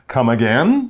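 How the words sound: The pitch rises at the end. The speaker asks to have something repeated. "she would definitely say it with a rising tone in her voice"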